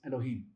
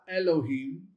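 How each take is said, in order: First: The first vowel is short and brief. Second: The first vowel is held long and full. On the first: The speaker calls it right. "So it's shortened, shortened that beginning, but brief" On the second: The speaker calls it wrong. "It's not Elohim"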